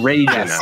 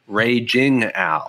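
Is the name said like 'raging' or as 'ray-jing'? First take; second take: raging; ray-jing. First: The name is said like the word raging. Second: The name is said as ray-jing, not raging. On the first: The speaker calls it wrong. "not Ray Jing Al" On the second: The speaker calls it right. "it's Ray Jing with a G"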